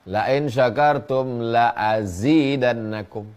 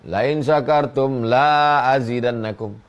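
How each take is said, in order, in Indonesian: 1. 'La' yang kedua vokalnya pendek. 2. 'La' yang kedua vokalnya panjang. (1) "sungguh pasti akan kutambah" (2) "kamu tidak akan kutambah"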